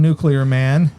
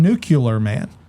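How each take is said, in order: First: The word is said with the usual 'nu-clee-ar' sounds. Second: The word is said as 'new-kyu-lar' with an extra u. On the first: "Lex Luthor does not call him Nuclear Man" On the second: "He calls him Nuclear Man"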